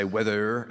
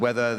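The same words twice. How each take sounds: First: Northern English "weather" with a hard final R; northern rhotic accent. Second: Said in the usual way. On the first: Shown as a demonstration. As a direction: say "weather" the northern way, sounding the R at the end. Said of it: "a genuine northern accent involves the rhotic R". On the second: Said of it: "the hard pronunciation of the letter R".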